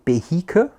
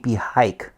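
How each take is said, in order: First: It is pronounced the usual German way. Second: It is pronounced the way used elsewhere. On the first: This is how people in Germany say it. "In Germany, very often we say Behike" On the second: This is how people elsewhere say it. "in other places in the world, they say Behike"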